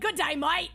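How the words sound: It is said in an Australian accent.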